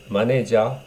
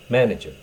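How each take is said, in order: First: It is said with Japanese katakana pronunciation. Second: It is said with English pronunciation.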